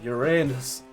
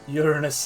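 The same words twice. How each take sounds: First: It uses the everyday, non-scientific pronunciation. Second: It uses the pronunciation favored in scientific speech.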